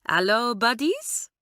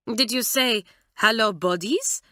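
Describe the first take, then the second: First: Slow, friendly hallo with a lightly voiced French lilt; amiable French girl. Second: A hint of a French accent, puzzled; lightly voiced French aunt questioning the phrase. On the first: French girl cheerfully greeting her new classmates, slow and lightly voiced. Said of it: "said Claudine amiably". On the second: Mamselle repeating the odd greeting, lightly voiced and puzzled French. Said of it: "said Mamselle". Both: A narrator's reading.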